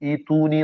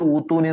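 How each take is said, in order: First: The word begins with an 'i' vowel. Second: The word begins with a 'u' vowel. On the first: This is how it was actually recited. The speaker calls it right. "ഈ തൂനി എന്നാ ഓടിയത്" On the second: This is what the general rule predicts. The speaker calls it wrong. "നമ്മൾ പഠിച്ചനുസരിച്ച് ഊത്തൂനി എന്നാ വരണ്ടേ"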